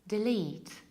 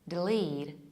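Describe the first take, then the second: First: It is said in a British accent. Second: It is said in an American accent. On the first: "delete in British accent" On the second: "delete in American accent"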